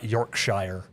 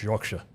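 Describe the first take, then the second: First: "Yorkshire" slowly, ending fully sounded like "shire" in the Shire; mispronounced Yorkshire. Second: "Yorkshire" with a short, reduced "-shuh" ending; corrected Yorkshire pronunciation. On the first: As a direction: draw out "Yorkshire" with a full "shy-er" ending. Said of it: "it's not Yorkshire. It's Yorkshire". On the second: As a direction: say "Yorkshire" the British way, as "York-shuh". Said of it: "Sorry, sorry, it's not Yorkshire". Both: Shown as a demonstration.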